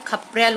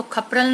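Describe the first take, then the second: First: खपरेल with a clear long e in the middle; correct word read out. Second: खपरल said with a short a, no e sound; wrong word read out. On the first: Teacher reading the right word to pupils, the e drawn clear. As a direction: lean on the e of खपरेल. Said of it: "खपरेल होता है". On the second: Teacher reading the wrong word to pupils, plainly. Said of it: "नहीं होता है". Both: Shown as a demonstration.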